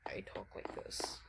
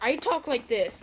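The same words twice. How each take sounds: First: It is said quietly. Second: It is said loudly.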